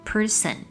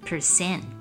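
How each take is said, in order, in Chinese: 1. 重音在第一个音节。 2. 重音在第二个音节。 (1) "常常会听到有人把重音放在第一节念成person" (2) "正确的读法是重音要放在第二节"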